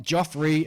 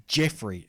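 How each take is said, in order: First: "Joffrey" with an O, as JOFF-ree; mistaken pronunciation. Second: "Jeffrey" with a short E, as in "Jeff"; correct pronunciation. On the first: Retold or imitated. Quoting Kentucky Dave's slip from a listener's email, "Joffrey" with an O. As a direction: say "Joffrey" with O in place of short E. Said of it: "as Dave, Kentucky Dave said". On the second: Shown as a demonstration. Reading out a listener's correction of the name, "Jeffrey" with short E. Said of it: "first name is pronounced as".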